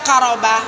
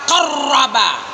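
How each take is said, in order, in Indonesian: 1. Bunyi r-nya tunggal dan ringan. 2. Bunyi r-nya dobel dan ditekan. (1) "jangan kamu baca qaroba, berarti nggak pakai tasdid itu" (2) "Di situ ro-nya ada tasdid, maka ditekan suaramu"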